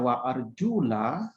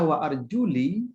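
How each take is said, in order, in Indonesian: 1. Kata terakhir berakhir dengan vokal 'a'. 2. Kata terakhir berakhir dengan vokal 'i'. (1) "dengan harakat fathah lamnya" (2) "dengan harakat kasrah lamnya"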